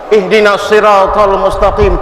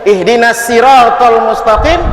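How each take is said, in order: First: The s in siratal is heavy and emphatic. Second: The s in siratal is light and plain. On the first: Guide us to the straight path. The speaker calls it right. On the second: Guide us to the straight crab. The speaker calls it wrong.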